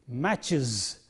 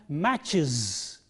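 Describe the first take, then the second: The two takes are said the same way.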